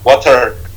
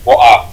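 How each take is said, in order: First: It is said in an American accent. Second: It is said in a British accent.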